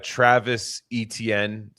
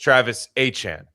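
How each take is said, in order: First: The surname is said like Etienne. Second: The surname is said like Achan. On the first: This is the older way the name was said. "has a different pronunciation for his name now" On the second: This is the new way the name is said. "It's Travis Achan"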